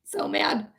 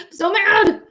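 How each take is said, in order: First: Voiceless, seething undertone; quietly mad. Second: High, loud burst of anger; openly mad. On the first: Streamer irritated by the raids, hushed anger. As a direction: hold the anger down to a hush. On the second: Streamer irritated by the raids, high angry outburst. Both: Real, not acted. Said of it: "I'm so fucking irritated".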